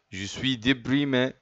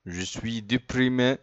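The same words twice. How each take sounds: The two takes are said the same way.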